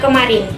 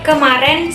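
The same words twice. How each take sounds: First: All vowels keep their standard sounds. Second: One vowel is shifted to an e sound. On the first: The speaker calls it right. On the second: The speaker calls it wrong. "peralihan fonem vokal E"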